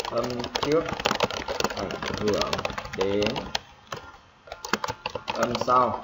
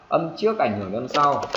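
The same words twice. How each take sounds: First: Long pauses between phrases, as if dictating; spaced-out dictation of a rule; piece by piece. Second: Said in the usual way. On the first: Shown as a demonstration. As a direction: dictate it slowly in small chunks. Teacher repeats rule piece by piece.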